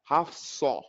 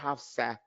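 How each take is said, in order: First: The s sound is heavy, with a raised tongue. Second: The s sound is light, with a flat tongue. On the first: The speaker calls it right. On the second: The speaker calls it wrong.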